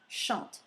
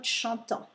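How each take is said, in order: First: The written ending is silent after the consonant. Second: The written ending is sounded as a nasal vowel. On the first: The speaker calls it right. "So pronunciation, chante" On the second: The speaker calls it wrong. "not chantant"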